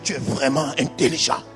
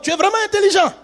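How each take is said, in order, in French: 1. C'est dit sur un ton moqueur, sarcastique. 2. C'est dit sur un ton simple et sincère. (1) "l'émotion qui entoure tu es vraiment intelligent est un poison" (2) "Littéralement, on écrit dans le"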